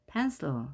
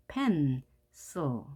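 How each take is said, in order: First: Said in the usual way. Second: "pencil" broken as pen, pause, cil; split syllables. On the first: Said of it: "이렇게 하나의 음절". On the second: Shown as a demonstration. Teacher divides between consonants, "pencil" with a gap after pen. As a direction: say "pencil" in two separate pieces. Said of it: "그 사이를 갈라라".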